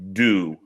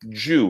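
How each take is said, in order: First: The word begins with a plain D sound. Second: The word begins with a J-like sound. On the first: This is the American way of saying it. "We would say do" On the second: This is the British way of saying it.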